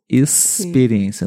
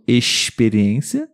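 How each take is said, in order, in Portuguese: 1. O x tem som de s. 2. O x não tem som de s. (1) "mas aqui o som é S" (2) "Não experiência, ... como no Rio de Janeiro, teria esse som"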